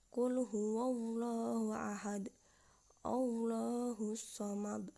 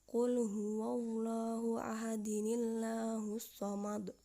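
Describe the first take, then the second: First: The first verse ends on ahad, then a stop. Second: Ahad links into the next verse with an added nin. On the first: "Contohnya yaitu" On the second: "Jika diwasolkan maka dibaca"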